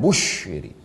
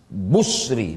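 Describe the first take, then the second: First: The middle consonant is an sh sound. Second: The middle consonant is a plain s sound. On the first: The speaker calls it wrong. "bukan bushri" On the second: The speaker calls it right. "dibaca dengan sin muhmalah"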